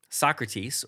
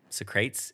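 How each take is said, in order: First: The name is pronounced in the usual way. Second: The name is pronounced in a playful, comic way.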